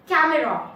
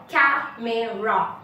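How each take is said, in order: First: Said in the usual way. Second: Camera slowly split as ca-me-ra; three separate slow beats in camera; syllable by syllable. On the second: Shown as a demonstration. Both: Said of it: "three syllables in a single word".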